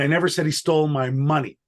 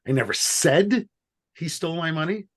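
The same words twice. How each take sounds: First: The stress is on "money". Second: The stress is on "said".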